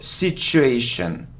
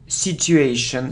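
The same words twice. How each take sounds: First: The middle consonant is a sh sound. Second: The middle consonant is a plain t. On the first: The speaker calls it right. "the correct pronunciation, it's the sound sh" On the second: The speaker calls it wrong. "I often hear situation"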